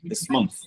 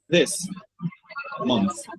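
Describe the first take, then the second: First: The two words are joined smoothly without a break. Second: The two words are said with a break between.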